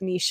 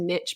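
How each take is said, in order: First: The word ends like 'eesh', as in quiche. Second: The word ends like 'itch', rhyming with riches. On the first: This is the older, traditional form. "I think it started with niche" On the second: This form spread through a catchy saying. "moved to niche because of a fun saying"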